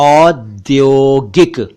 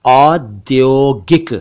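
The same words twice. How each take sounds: No difference in how they are said.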